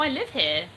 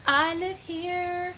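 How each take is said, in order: First: Said in the usual way. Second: Very slow, high-pitched, stretched words; drawn-out repeat. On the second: Pretend. Streamer answering a viewer who thinks she's on vacation, drawn-out and high. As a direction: stretch each word out high.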